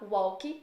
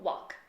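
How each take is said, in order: First: It is said with a Brazilian Portuguese accent. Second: It is said with an American English accent. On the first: "brasileiro tende a falar walk" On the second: "no inglês americano eles falam walk"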